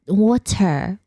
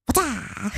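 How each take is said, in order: First: "water" ending in a clear American R. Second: "Wata" with no R, open final a, clipped; Aussie water. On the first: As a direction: try "water" with the R sounded at the end. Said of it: "A person pronounces water with an R". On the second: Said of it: "he, she ain't Aussie". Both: Shown as a demonstration.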